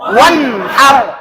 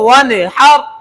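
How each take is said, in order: First: The n sound is held firmly without any bounce. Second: The n sound is released with an echoing bounce. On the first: The speaker calls it right. "পুরাপুরি ধরে রাখতে হবে" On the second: The speaker calls it wrong. "এই যে ওয়ান এটা কলকলা হয়ে গেছে"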